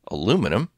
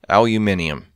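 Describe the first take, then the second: First: It is said with four syllables, American style. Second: It is said with five syllables, Australian style. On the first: "as we would say here in America" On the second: "As the uh, the Australians would say"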